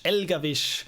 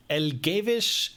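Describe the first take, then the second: First: Elgavish said firmly with a short open a, El-GAH-vish, falling at the end; settled name try. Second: Elgavish spoken slowly, tentatively, as a questioning guess El-GAY-vish; unsure name try. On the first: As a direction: land on Elgavish with confidence. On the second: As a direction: sound out Elgavish carefully with a questioning rise. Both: Shown as a demonstration. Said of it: "close to the actual pronunciation".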